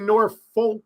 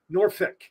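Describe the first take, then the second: First: The second syllable sounds like the word folk. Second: The second syllable ends in an ick sound. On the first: "you don't say Norfolk, F O L K" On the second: "or ick, Norfolk, ick"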